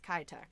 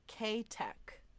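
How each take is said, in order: First: The name starts with a short 'kih' sound. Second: The name starts with a long 'kay' sound. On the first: This is how the speaker personally says it. "I think it's pronounced Kitek. That's how I say it" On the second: This is how the online pronunciation says it. "they pronounced it K-Tech"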